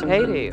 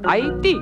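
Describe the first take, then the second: First: The name has a plain English pronunciation. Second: The name has a local Haitian pronunciation.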